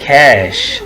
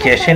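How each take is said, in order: First: It ends cleanly on the 'sh' sound. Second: It ends with an extra 'ay' vowel sound. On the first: The speaker calls it right. "That is कैश" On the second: The speaker calls it wrong. "कैशे नहीं बोलना"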